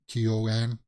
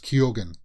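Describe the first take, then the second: First: The middle G sound is left out. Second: The middle G sound is clearly pronounced. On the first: The speaker calls it wrong. "I heard it pronounced Keogan" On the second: The speaker calls it right. "he pronounces the G in it"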